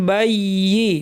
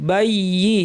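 The two takes are said the same way.

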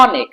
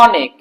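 First: The first vowel is open, lips spread. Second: The same.

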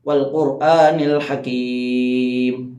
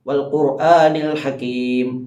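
First: The final vowel is held for a medium time. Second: The final vowel is held for a short time. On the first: "രണ്ടലിഫിൻ്റെ കഥ നീട്ടാം" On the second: "അവിടെ നമുക്ക് ഒരലിഫിൻ്റെ കഥ നീട്ടാം"

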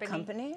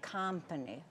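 First: The vowel is given an ordinary English quality. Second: The vowel is given a Hungarian-accented quality. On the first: "instead of company" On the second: "So they say company"

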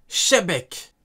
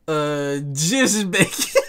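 First: The name begins with a sh sound. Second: The name begins with the word dièse. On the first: "Petit 2" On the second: "Donc le X, on le prononce dièse"

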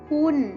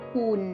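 First: The syllable has a falling tone. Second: The syllable has a low tone. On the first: "เสียงโท" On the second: "เสียงเอก"

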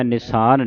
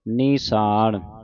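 First: The first vowel is a short i. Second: The first vowel is a long i. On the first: The speaker calls it wrong. "ਨਿਸਾਨ ਨਹੀਂ ਕਹਿਣਾ" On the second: The speaker calls it right. "ਬਿਹਾਰੀ ਦੇ ਨਾਲ ਉਚਾਰਨ ਕਰਨਾ ਹੈ"

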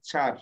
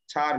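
First: The word begins with a 'ch' sound. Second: The word begins with a 'ch' sound.

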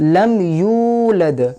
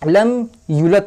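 First: The vowel in 'yu' is drawn out long. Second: The vowel in 'yu' is cut short. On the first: The speaker calls it right. "এই ইউয়ে টান আছে" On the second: The speaker calls it wrong. "একটা অক্ষর কমিয়ে দিচ্ছে, তো এটাও বড় ভুলের মধ্যে পড়ে"

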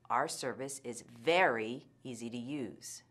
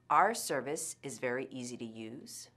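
First: The word 'very' gets strong stress. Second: No word gets strong stress. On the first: "The second time, I'll put a lot of stress on the intensifier" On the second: "The first time, I will not use much word stress"

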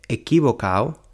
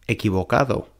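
First: The d sound in the ending is dropped. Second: The d sound in the ending is pronounced. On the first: The speaker calls it wrong. "se come la letra D" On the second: The speaker calls it right. "en lugar de"

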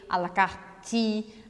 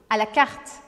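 First: An extra vowel sound follows the final T. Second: It ends sharply on the T, no vowel. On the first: The speaker calls it wrong. "A gente não puxa o E no final. A gente não fala à la carte" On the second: The speaker calls it right. "o último som ouvido é o som do T, é o estalo do T"

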